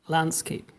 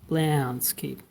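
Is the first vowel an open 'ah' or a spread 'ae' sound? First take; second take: open ah; spread ae. First: The first vowel is a plain, open 'ah' sound. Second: The first vowel is a spread, smiling 'ae' sound. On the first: "otherwise it'll be like" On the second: "like a mixture of A and E ... kind of smiling when you pronounce it"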